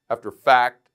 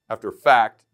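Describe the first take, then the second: No difference in how they are said.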